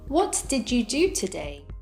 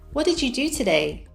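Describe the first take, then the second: First: Each word is said separately and fully. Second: The words are linked and reduced together. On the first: "without connected speech" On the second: "with connected speech"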